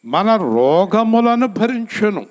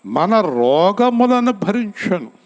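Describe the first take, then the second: First: Said in the usual way. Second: Slow, weighty, stress on రోగములను; slow emphatic reading. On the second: Shown as a demonstration. Preacher slowly stresses the verse to the congregation. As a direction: lean hard on రోగములను, drawn out.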